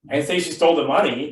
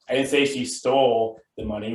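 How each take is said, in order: First: The word 'money' carries the main stress. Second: The word 'stole' carries the main stress. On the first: She took something other than the money. "but maybe she stole something else" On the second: She did something else with it, like borrowing. "which means maybe she borrowed it"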